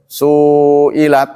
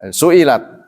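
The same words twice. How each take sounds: First: One vowel is held longer than the others. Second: All vowels are held for the same length. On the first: The speaker calls it wrong. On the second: The speaker calls it right.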